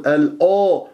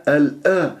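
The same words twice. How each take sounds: First: ال أ with the hamza darkened to أو; wrongly heavy hamza. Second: ال أ with a thin, open hamza; light hamza. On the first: Teacher imitates the mistake before Ra, heavy hamza. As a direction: say أو with a thick, rounded vowel. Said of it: "لا تفخمها بسبب الراء". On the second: Teacher corrects the student's hamza, light thin أ. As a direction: keep أ light and unrounded. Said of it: "والهمزة مرققة". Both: Shown as a demonstration.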